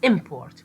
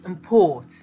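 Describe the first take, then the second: First: The stress is on the first syllable. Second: The stress is on the second syllable. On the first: It is a noun. "with stress or prominence at the first on the first syllable" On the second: It is a verb. "But if the second syllable"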